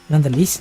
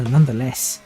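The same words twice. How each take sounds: First: "Nonetheless" ending like "leece"; accented last syllable. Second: "nonetheless" ending in a short-e "less"; corrected last syllable. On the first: Driver trying the accent on one word, "Nonetheless" ending in "leece". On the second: Driver correcting his own word, "nonetheless" ending in "less". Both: Shown as a demonstration. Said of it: "no, nonetheless".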